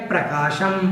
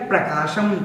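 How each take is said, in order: No difference in how they are said.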